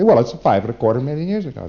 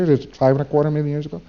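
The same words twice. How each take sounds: First: A touch of smug certainty, statement falling; mildly pleased with himself, a settled falling answer; satisfied. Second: Quick, rising, asking for approval; unsure question. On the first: Preclear stating the date to the auditor, mildly satisfied. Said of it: "have them say rather satisfiedly". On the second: Preclear really asking the meter for approval, quick and rising. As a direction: rush it out as an anxious query. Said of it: "See, they're saying". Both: Retold or imitated.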